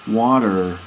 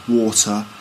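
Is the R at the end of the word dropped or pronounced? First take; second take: pronounced; dropped. First: The final R is clearly pronounced. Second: The final R is not pronounced. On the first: "So there's definitely a rounded R sound" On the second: "we say water"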